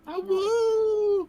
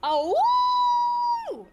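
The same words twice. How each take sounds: First: Long, high, loud wolf howl. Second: Loud howling wolf cry. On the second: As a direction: throw your head back and howl. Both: Acted. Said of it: "like a wolf awoo".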